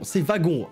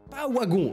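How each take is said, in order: First: The word begins with a V sound. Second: The word begins with a W sound. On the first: The speaker calls it right. "c'est un W, mais là, on le prononce V" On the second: The speaker calls it wrong. "Alors non"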